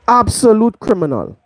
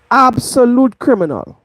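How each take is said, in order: Both takes have the same delivery.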